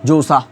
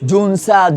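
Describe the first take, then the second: First: The n is only heard as vowel nasalization. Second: The n is fully pronounced as a consonant. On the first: The speaker calls it right. "আমি পড়ছি এটাকে জোসা, মানে এইভাবে আর কি" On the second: The speaker calls it wrong. "মূল নুন হইতে এটার ফলামু কেমনে"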